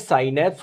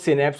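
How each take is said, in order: First: The first syllable sounds like 'sigh'. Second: The first syllable sounds like 'sih'. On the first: "इस gap को बोलते हैं साइनेप्स" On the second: "कुछ लोग सिनेप्स भी बोलते हैं"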